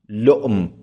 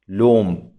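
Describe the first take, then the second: First: A glottal stop follows the short vowel. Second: The glottal stop becomes a long u vowel. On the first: This is the form with the hamza kept. "مثل لؤم لؤم" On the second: This is the form with the hamza softened. "تقول لوم لوم"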